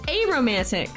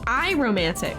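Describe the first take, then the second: First: The first vowel sounds like 'ay'. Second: The first vowel sounds like 'eye'. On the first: The speaker calls it right. "Not I. A" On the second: The speaker calls it wrong. "It's I I romantic"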